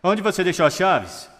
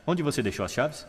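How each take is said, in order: First: High, loud, insistent question with "Onde" emphasized; excited high pitch. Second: Casual question, "chaves" rising lightly at the end; neutral questioning pitch. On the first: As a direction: hit "Onde" high and fall away on "chaves". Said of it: "Significados ligeiramente diferentes nessas duas formas". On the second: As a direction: ask softly, lifting "chaves". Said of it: "fazê-lo apenas com a tonalidade". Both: Shown as a demonstration.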